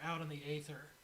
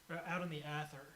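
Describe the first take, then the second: First: The first vowel of Aether is not like cat. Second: The first vowel of Aether is like cat. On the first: It sounds more mysterious. "I like Aether. It sounds cool. It sounds more mysterious" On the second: It feels less impactful. "A, like ash, uh, or cat"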